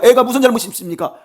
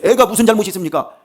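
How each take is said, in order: First: The same question pushed higher and louder; desperate plea, building. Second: Loud, raised pleading question; desperate plea. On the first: David pleading with God for his child, the loudest outcry. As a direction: cry it out harder this time, pleading with God. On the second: David pleading with God for his sick child, loudly acted. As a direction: ask God why the child must suffer. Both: Acted. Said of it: "막 간절하게 울면서".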